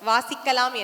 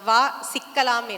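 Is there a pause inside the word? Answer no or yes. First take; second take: no; yes. First: It is said as one word without a pause. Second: It has a short break after the first syllable. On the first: Let's read. "ஒரு புத்தகம் சொல்கிறதாம்" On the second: Come, let's get trapped. "ஒரு space வந்தோடனே மாறி போயிடுது"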